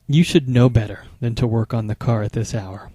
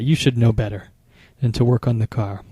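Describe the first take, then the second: First: Hushed, scolding rhetorical jab; lightly voiced scolding partner in a whisper; reproachful whisper. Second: Voiced, a touch of scolding, not whispered; a hint of a disappointed partner; mild reproach. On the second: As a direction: say the reproach half-aloud, lightly scolding. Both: Shown as a demonstration. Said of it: "You can hear the tone in my voice".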